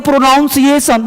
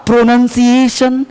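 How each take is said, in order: First: प्रोनाउंसिएशन said with an "ow" sound, like "pro-NOUN"; demonstrating the wrong "noun" vowel in प्रोनाउंसिएशन; common mispronunciation. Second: प्रोनंसिएशन slowly, with a short "nun" in the middle; careful, level प्रोनंसिएशन with "nun", not "noun"; correct pronunciation. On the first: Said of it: "लोग बोलते हैं प्रोनाउंसिएशन". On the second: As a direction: model प्रोनंसिएशन slowly, no "ow" sound. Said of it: "प्रोनाउंसिएशन नहीं होता". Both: Shown as a demonstration.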